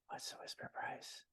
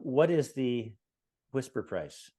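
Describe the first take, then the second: First: It is spoken in a whisper. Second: It is spoken in a normal voice.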